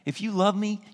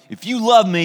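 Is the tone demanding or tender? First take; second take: tender; demanding. First: It is said in a warm, tender tone. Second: It is said in a stern, demanding tone. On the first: Jesus speaks with love to friends he loves. The speaker calls it right. "I really believe it sounded something like this" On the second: Jesus sounds like a control freak taskmaster. The speaker calls it wrong. "some people read that scripture and he's like"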